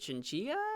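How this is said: The word is given a Spanish pronunciation. "if you're like Spanish, it might be chinchilla"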